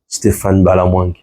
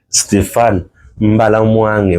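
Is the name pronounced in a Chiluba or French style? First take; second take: French; Chiluba. First: The name is said with a French pronunciation. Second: The name is said with a Chiluba pronunciation. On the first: "je prononce bien mon nom en français ou en lingala" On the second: "Je vais le prononcer un peu en, en ma langue, hein, en Chiluba"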